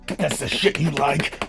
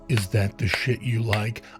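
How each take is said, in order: First: It is said fast, without tender feeling. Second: It is said slowly, with tender feeling.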